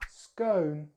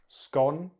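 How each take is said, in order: First: It is said with an American accent. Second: It is said with a British accent. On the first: "then American English" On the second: "in British English"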